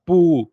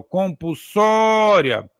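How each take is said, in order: First: "compulsória" broken up, com, pu, sória, with long pauses; split into syllables. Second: "compulsória" joined up, with "só" held long; stressed syllable drawn out. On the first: Teacher showing how to separate "compulsória", syllable by syllable with pauses. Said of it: "Se você for separar, é assim". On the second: Teacher rejoining the word, "compulsória" with long stressed "só". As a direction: say "compulsória" slowly, leaning on "só". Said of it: "é assim, ó". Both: Shown as a demonstration.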